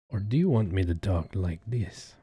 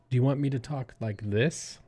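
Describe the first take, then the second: First: It is said in a put-on sexy voice. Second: It is said in his normal voice.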